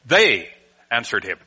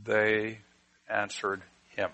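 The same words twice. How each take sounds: First: "They" punched, "answered him" falling away; stress on THEY. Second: "They answered him" with "They" given weight, dropped soft at the end; trailing quiet demo of the wrong stress. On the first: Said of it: "We put the emphasis on the first word". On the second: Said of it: "we have a very hard time starting that out and saying". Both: Shown as a demonstration.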